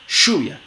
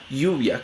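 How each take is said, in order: First: The first sound is a voiceless sh. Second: The first sound is a soft, gliding y. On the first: This is how people of the Southern Cone say it. "como fricativa postalveolar sorda" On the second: This is roughly how it is said in New Mexico. "una aproximante palatal sonora"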